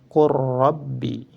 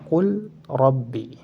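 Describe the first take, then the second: First: The l is merged into a doubled r. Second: The l is pronounced clearly before the r. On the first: The speaker calls it right. "memasukkan huruf yang pertama ke dalam huruf yang kedua" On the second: The speaker calls it wrong. "Tidak boleh dibaca qul rabbi"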